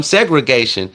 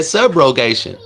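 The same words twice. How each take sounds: First: Segregation said in place of subrogation; mispronounced. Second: Subrogation said carefully and correctly; correct pronunciation. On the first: Retold or imitated. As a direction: mimic her garbled segregation. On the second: Shown as a demonstration. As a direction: set her straight with a clean Subrogation. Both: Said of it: "She couldn't even pronounce the word".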